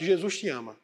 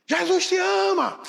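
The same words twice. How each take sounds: First: Said in the usual way. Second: Drawn-out shout, much higher and louder. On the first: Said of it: "diga bem alto". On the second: Acted. Man obeying the Spirit at 3am, shouting slowly. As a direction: yell it slowly out to the empty street. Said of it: "dê um grito bem alto".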